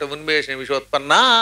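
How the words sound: The final vowel is drawn out long before a break. The compound is broken and the meaning changes. The speaker calls it wrong.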